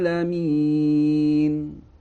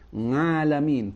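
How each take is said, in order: First: The word begins with a throat ain sound. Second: The word begins with an ng sound. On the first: The speaker calls it right. "seharusnya adalah mengucapkannya dengan huruf a, bukan nga" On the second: The speaker calls it wrong. "dia mengucapkannya bukan ain tapi nga"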